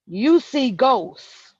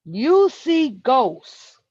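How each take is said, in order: First: Very slow, louder, each word weighted; slow emphatic. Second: Very slow and louder, YOU leaned on; slow emphatic. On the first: Telling the woman she sees ghosts, slow and heavy. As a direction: lay it down word by word. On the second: Repeating his verdict to her, slower and heavier. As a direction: spell it out to her once more. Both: Real, not acted.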